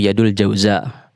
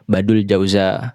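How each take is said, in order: First: The name begins with a y sound. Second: The name begins with a b sound. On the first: This is the original Arabic form. "nama aslinya" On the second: This is how Europeans misread it. "Huruf ya dibacanya ba"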